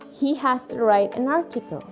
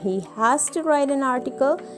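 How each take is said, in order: First: The words are contracted and run together. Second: Every word is said fully and separately. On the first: "you may use a contraction" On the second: "Instead of saying"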